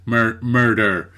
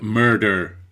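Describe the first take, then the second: First: Slow "Mur-, murder" with the American er sound; American R attempt. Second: Slow, overdone American "murder" with heavy rolled-back R; exaggerated American R. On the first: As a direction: try the American R in "murder" again, slowly. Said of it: "The, the, the kind of er sound". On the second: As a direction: drag out "murder" with a thick American er sound. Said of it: "that was over-exaggerated on purpose". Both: Shown as a demonstration.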